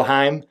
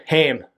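First: Haim said as "hime", rhyming with time; corrected take of Haim, said like "hime"; corrected name. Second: Haim said as "hame", rhyming with game; first, wrong take of Haim with an "ay" sound; mispronounced name. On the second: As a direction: say Haim with the vowel of "day". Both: Real, not acted. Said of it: "Haim, oh".

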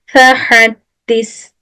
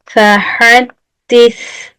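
First: "Fehaddis" with a plain Turkish s; normal s. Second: "fehaddis" slow, lisped th-like s. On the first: Teacher showing the wrong plain s in "Fehaddis". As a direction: say "Fehaddis" with ordinary s. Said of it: "Normal S olsaydı". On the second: Teacher showing the correct lisped "fehaddis". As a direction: lisp the end of "fehaddis". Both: Shown as a demonstration.

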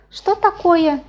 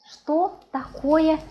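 First: Quicker "Что такое?", high and loud; emphatic question. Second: Slow, higher "Что такое?"; slow demonstration. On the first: Teacher repeating how to ask about a dish, emphatically. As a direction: punch out "Что такое?" as one high phrase. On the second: Teacher showing how to ask about a dish, slowly. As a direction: stretch out "Что такое?" word by word. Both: Shown as a demonstration.

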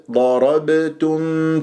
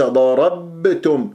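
First: ضربتم drawn out, ب struck and released at once; light qalqala. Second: ضربتم wrongly stopping and pressing on the ب; cling to the ب in ضربتم instead of releasing it; over-held qalqala. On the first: Teacher shows hit-and-release articulation, slow ضربتم with echoing ب. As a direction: bounce quickly off the ب in slow ضربتم. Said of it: "اضرب المخرج واهرب". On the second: Teacher warns against holding the articulation point, faulty ضربتم. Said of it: "وليس ضربتم". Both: Shown as a demonstration.

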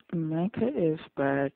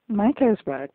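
First: Said in the usual way. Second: Louder, higher, excited announcement. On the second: Real, not acted. Viewer greeting Micah's return on screen, excited. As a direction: hail the return with a jump in pitch.

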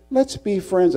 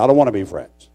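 First: High put-on friendly plea; mock a mild schoolboy offering friendship; high-pitched imitation of a peacemaker; meek classmate. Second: Retold refusal. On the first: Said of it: "He says". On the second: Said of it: "I said".

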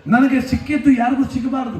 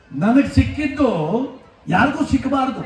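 First: ನನಗೆ ಸಿಕ್ಕಿದ್ದು ಯಾರಿಗೂ ಸಿಕ್ಕಬಾರ್ದು flung out as one shout, ನನಗೆ hit hardest; stage shout of the selfish motto; shouted in one breath. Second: ನನಗೆ ಸಿಕ್ಕಿದ್ದು and ಯಾರಿಗೂ ಸಿಕ್ಕಬಾರ್ದು set apart by pauses; measured build-up before the punch; slow spaced phrases. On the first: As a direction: hurl the whole line at the crowd. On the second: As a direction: lay it out piece by piece, ಯಾರಿಗೂ leaned on. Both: Shown as a demonstration.

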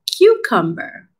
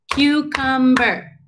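First: Said in the usual way. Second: "Cucumber" slow and higher, in three even beats; syllable by syllable. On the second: Shown as a demonstration. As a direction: chant "Cucumber" one syllable per clap. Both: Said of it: "ready to clap?".

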